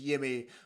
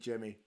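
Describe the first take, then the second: First: The name is pronounced the Swedish way. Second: The name is pronounced the English way. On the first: "the Swedish pronunciation is" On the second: "For us, it's going to be"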